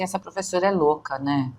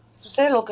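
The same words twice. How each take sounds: First: Quick mock student muttering "Essa professora é louca"; fast teasing student quote; imitating a student. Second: Said in the usual way. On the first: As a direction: rattle it off like a fed-up student. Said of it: "a pessoa fala assim". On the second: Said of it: "eu já entendi".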